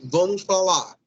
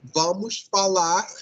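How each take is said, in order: First: The final R of falar is dropped. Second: The final R of falar is clearly pronounced. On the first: "eles dizem ... vão suprimir essa R" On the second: "ao invés de dizer"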